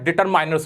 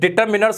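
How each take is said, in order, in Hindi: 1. तीसरे अक्षर में लंबा 'eye' स्वर है। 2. तीसरे अक्षर में छोटा 'ih' स्वर है। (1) "डिटरमाइनर्स नहीं होता" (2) "ये डिटर्मिनर्स होता है"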